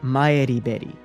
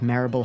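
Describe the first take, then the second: First: The name is said in a Japanese way. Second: The name is said in an English way.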